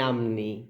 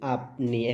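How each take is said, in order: First: The middle consonant is an m sound. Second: The middle consonant is a p sound. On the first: The speaker calls it wrong. "এখন আপনি বলতেছেন যে আমনি" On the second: The speaker calls it right. "প সারিয়া প, আপ, আপ দন্ত্য ন রসিকার নি, আপনি"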